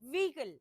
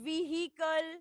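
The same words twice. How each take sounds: First: The h sound is quick and almost silent. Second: The h sound is clearly and strongly pronounced. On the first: The speaker calls it right. "her has to be very minute" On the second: The speaker calls it wrong. "It's not vehicle or vehicle"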